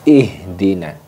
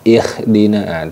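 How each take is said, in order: First: The h is made deep in the throat. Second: The h is scraped and raspy like kh. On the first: The speaker calls it right. "letaknya di bagian tengah, bagian pangkal tenggorokan" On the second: The speaker calls it wrong. "terlalu ada ngoroknya itu malah larinya ke kho"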